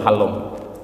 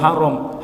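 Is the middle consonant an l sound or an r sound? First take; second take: l sound; r sound. First: The middle consonant is lisped as an l. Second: The middle consonant is a clear r sound.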